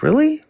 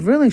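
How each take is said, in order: First: Incredulous really. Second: Said in the usual way. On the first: Retold or imitated. Hears sister's weekend plan.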